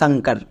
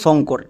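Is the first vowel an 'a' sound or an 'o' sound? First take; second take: a sound; o sound. First: The first vowel is an a sound. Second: The first vowel is an o sound. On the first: This is how it is said in English. "ইংরেজিতে উচ্চারণ করা হয়" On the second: This is how it is said in Bengali. "আমরা বাংলায় এই নামটাকে উচ্চারণ করি"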